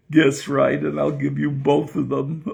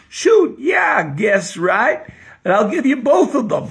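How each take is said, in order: First: Said in the usual way. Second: Put-on high, shouted Kentucky joke accent; Southern accent. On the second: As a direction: holler back in exaggerated Southern speech. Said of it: "I'm gonna have to talk like this".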